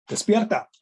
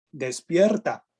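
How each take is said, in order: First: Sudden shout, pitch jumping up high; loud wake-up call. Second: Said in the usual way. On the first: Shown as a demonstration. Preacher shouting at the congregation to wake up. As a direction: shout it to wake the sleeping crowd. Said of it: "Oh, disculpen, los desperté". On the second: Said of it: "así con signos de exclamación".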